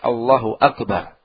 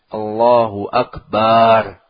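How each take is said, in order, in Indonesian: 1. Vokal pada suku kata terakhir pendek. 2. Vokal pada suku kata terakhir panjang. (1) "yang sahih pendek" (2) "sebagian lagi memanjangkan bacaan barnya. ... Panjang"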